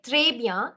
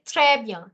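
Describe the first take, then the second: First: Très bien said with a rising, wrong vowel in très; très bien, the incorrect version; wrong pronunciation. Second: Très bien with an open è in très and a falling tune; correct pronunciation. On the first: Teacher giving the wrong très bien. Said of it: "You don't say très bien". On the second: Teacher modelling the correct très bien. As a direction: say très bien the right French way. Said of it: "you say très bien". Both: Shown as a demonstration.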